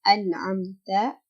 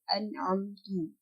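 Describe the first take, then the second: First: The word ends with an a vowel. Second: The word ends with a u vowel. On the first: The speaker calls it right. "kata an'amta" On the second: The speaker calls it wrong. "atau an'amtu"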